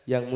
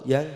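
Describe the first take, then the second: The two takes are said the same way.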